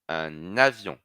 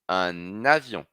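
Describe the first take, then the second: First: An n sound joins the two words together. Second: An n sound joins the two words together.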